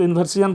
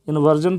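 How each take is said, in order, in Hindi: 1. अंत को दो अक्षरों में बोला जाता है, see-un। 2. अंत को एक अक्षर में बोला जाता है, zhun। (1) "कुछ लोग जो है ना इसको इन्वर्सियन पढ़ते हैं, इन्वर्सियन नहीं पढ़ना है" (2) "इसको इन्वर्जन पढ़ना है"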